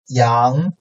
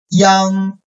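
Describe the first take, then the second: First: The pitch rises from mid to high. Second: The pitch stays high and level.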